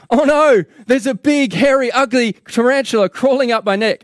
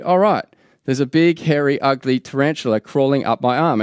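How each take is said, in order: First: Loud, high-pitched cry of alarm; hammed-up panic, pitched way up; acted panicked scream. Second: Said in the usual way. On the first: Newspaper reader feels the tarantula on his neck, acted panicked scream. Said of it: "And so he screams".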